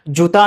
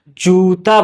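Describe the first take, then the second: First: The first vowel is said short and quick. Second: The first vowel is drawn out long. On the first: The speaker calls it wrong. "जूता नहीं बोला गया है" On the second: The speaker calls it right. "थोड़ा सा देर तक बोला गया है"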